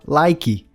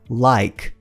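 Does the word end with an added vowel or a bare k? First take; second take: added vowel; bare k. First: The word ends with an added vowel after k. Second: The word ends cleanly on the k sound. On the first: The speaker calls it wrong. "A gente tem a tendência de falar like" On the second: The speaker calls it right. "mas termina com k"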